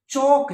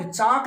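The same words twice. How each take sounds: First: चोक drawn out with a round o; correct vowel. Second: चाक with a long open aa; wrong vowel. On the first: Teacher correcting students, slow round o in चोक. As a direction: say चोक slowly with an o. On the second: Teacher showing the Hindi-style mistake, open aa in चाक. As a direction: say चाक with aa in place of o. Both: Shown as a demonstration. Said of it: "चाक नहीं".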